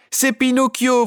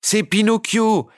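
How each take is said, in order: First: High, loud shout with stress on C'est. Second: High, slow shout, Pinocchio stressed, falling. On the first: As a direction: bellow it again, even louder. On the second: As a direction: yell it across the theatre. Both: A narrator's reading. Puppets rushing from the wings, shouting his name. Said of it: "vociférèrent en chœur tous les pantins".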